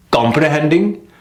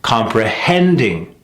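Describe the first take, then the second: First: COMPREHENDING short, rising, weak HEND; mis-stressed comprehending. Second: COMPREHENDING slow, falling after long HEND; correct stress on comprehending. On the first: Coach showing the wrong take, mis-stressed COMPREHENDING. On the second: Coach contrasting rhythms, stressed compre-HEND-ing. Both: Shown as a demonstration. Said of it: "one that I hear a lot".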